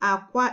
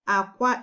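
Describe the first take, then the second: First: It has the tone pattern of the word egg. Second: The same.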